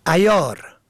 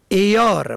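First: عیار said as ayyar, a first; fatha on first letter. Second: عیار said as eyar, e first; kasra on first letter. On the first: Teacher contrasting homographs, ayyar with fatha. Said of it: "به فتح اول". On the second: Teacher contrasting homographs, eyar with kasra. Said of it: "به کسر اول". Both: Shown as a demonstration.

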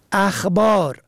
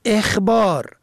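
First: اخبار said "akhbar"; فتحه on first letter. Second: اخبار said "ekhbar"; کسره on first letter. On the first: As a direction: start اخبار with a short a. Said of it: "به فتح اول". (اخبار با فتحهٔ الف: اَخبار) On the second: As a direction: start اخبار with a short e. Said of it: "به کسر اول". (اخبار با کسرهٔ الف: اِخبار) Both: Shown as a demonstration.

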